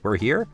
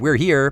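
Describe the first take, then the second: First: It is a question, rising at the end. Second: It is a statement, falling at the end. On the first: It asks a question. "you can ask it as a question. All you have to do is change your intonation" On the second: It states a fact. "if you can say something"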